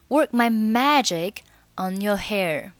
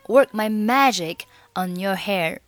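First: Magic and on are said as separate words. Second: Magic and on are said as separate words.

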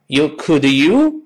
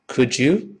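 First: The two words are said separately, not linked. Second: The two words are linked into one sound. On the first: The speaker calls it wrong. "不能这么读" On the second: The speaker calls it right. "读成Could you?"

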